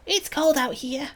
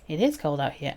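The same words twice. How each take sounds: First: Put-on high, childlike character voice; high-pitched small-creature complaint; young companion complaining. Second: Said in the usual way. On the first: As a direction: complain like a little kid, pitched up.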